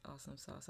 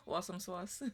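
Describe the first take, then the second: First: Said in the usual way. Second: Playful accent on "Awesome sauce", louder and higher; accent played up for a laugh; own regional accent, put on. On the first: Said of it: "have to say that in my accent". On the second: Shown as a demonstration. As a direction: lean into your accent, amused, drawing "sauce" into "swauce". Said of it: "have to say that in my accent for you".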